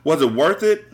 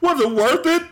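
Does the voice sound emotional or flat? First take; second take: flat; emotional. First: It is read in a flat, neutral tone. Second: It is read in an emotional, feeling tone. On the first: The speaker calls it wrong. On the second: The speaker calls it right.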